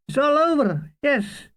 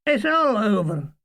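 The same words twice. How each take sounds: First: Pitched high, falling on over; high wistful sigh. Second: All weighted, then falling; stress on all. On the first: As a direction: lift it high and let it drop. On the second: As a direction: lean on all, let over fall. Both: Acted. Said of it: "says Mulgrew".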